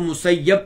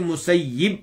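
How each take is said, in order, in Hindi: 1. दोहरे य के बाद 'a' स्वर है। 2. दोहरे य के बाद 'i' स्वर है। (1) "या के ऊपर जबर पढ़ें, फतह पढ़ें" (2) "या के नीचे कसरा पढ़ें"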